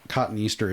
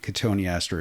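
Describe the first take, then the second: First: It sounds like two words, 'cotton Easter'. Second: It sounds like one word, 'co-toe-nee-aster'. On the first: This is the American pronunciation. "the American pronunciation" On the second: This is the British pronunciation. "the British pronunciation"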